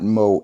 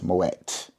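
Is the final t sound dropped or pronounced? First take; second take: dropped; pronounced. First: The name ends without a final t sound. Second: The name ends with a final t sound. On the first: The speaker calls it wrong. "it's not Moe" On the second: The speaker calls it right. "it's Moet"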